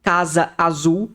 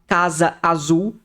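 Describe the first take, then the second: First: The two words are said separately, apart. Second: The two words are said separately, apart.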